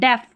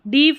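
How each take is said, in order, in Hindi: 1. स्वर की ध्वनि छोटी eh है। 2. स्वर की ध्वनि लंबी ee है। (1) "नहीं डेफ" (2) "डीफ नहीं"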